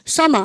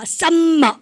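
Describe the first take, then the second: First: The m sound is pronounced once, single. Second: The m sound is pronounced twice, doubled. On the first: The speaker calls it right. "summer 한 번 발음하는 거예요" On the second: The speaker calls it wrong. "썸머 이렇게 하시는데 아니에요"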